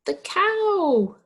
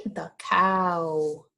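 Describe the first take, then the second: First: High and louder, bright answer reveal; teacher revealing the answer to kids, excited. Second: Said in the usual way. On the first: Acted. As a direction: announce the answer like a happy surprise.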